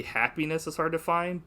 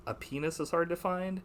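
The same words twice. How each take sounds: First: Said in the usual way. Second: Mock French accent making "happiness" sound like "A penis". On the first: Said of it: "it's supposed to be". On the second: Quoting the actress's line to a friend, light French accent. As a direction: say "A penis is hard to find" with the h dropped, French style. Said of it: "she says it like".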